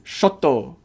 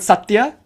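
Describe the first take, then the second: First: It starts with 'sh' and ends in 'to'. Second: It starts with 's' and ends in 'tya'.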